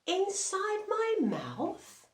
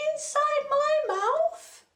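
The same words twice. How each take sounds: First: High, slow puzzled question; surprised lion. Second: Very high, loud squeaky voice; squeaky request. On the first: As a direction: sound amazed at the odd request. Lion asked to look in mouth. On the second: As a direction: squeak it out eagerly. Repeating the request to lion. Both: Acted.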